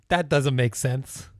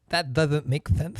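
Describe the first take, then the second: First: It is said in a plain voice without a lisp. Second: It is said with a slight lisp.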